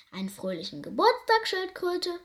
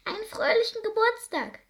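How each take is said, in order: First: Lightly voiced rhino, puffing out the greeting; a hint of a snorting rhino; mild huff of a big animal; huffing rhinoceros. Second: High squeak of a tiny mouse; high squeaky mouse greeting. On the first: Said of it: "schnaufte es". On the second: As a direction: peep it like a little mouse. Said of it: "piepste sie". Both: A narrator's reading.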